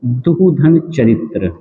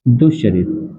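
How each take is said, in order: First: दुहधन चरित्र said slowly, the visarga voiced as a separate "duh-dhan" before चरित्र; विसर्ग को अलग करके धीरे-धीरे बोलना; visarga spelled out slowly. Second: दुष्चरित्र said as one word, the visarga turned into "shch"; संधि के बाद एक शब्द में जोड़कर बोलना; joined sandhi form. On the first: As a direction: sound out दुहधन with a clear "duh" syllable, then चरित्र. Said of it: "जैसे एक उदाहरण है आपका". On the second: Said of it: "दुष्चरित्र हो जाएगा". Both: Shown as a demonstration.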